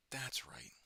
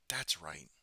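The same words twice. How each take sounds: First: Whispered, higher and softer repeat. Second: Said in the usual way. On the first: Real, not acted. Whispering a reminder to himself mid-game. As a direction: breathe it to yourself as you remember.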